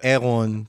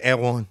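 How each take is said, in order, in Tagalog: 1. Binibigkas ang pangalan na may pagbigkas na Pranses. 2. Binibigkas ang pangalan na may simpleng lokal na pagbigkas. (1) "Pag French na, e e Eron. Parang ganun" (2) "Erwan pa rin yung pagpronounce natin"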